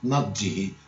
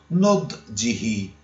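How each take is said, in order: First: The first vowel is not an u sound. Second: The first vowel is an u sound. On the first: This is the dialect form. The speaker calls it wrong. "in dialetto magari si usa nodjihi" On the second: This is the standard Arabic form. The speaker calls it right. "In arabo corretto, nodjihi"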